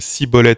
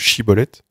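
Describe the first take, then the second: First: The word begins with an s sound. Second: The word begins with an sh sound. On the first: The speaker is not a member of the group. The speaker calls it wrong. "la lettre Shin était prononcée Sin par certains" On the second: The speaker is a member of the group. The speaker calls it right. "à la place de Shiboleth"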